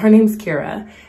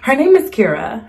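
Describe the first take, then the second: First: It is said smoothly and casually. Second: It is said urgently and forcefully.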